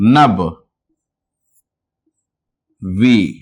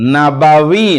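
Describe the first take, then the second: First: The word has two syllables, split after the b. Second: The word has three syllables, with a vowel after b. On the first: The speaker calls it right. "कैसे? इस तरह से" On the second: The speaker calls it wrong. "Urdu में नबावी नहीं"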